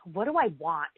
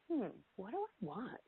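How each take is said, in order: First: It sounds harsh and judgmental. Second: It sounds gentle and curious.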